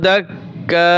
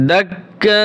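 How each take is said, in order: First: "দাক্কা" with long open final "kaa"; one-alif stretch. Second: "দাক্কা" ending in a long nasal "kang"; reading with ikhfa. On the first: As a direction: draw out the last vowel of "দাক্কা". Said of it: "এক আলিফ টান হবে". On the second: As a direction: hold the nasal hum after "দাক্কা". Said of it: "আর যখন reading পড়ব তখন". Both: Shown as a demonstration.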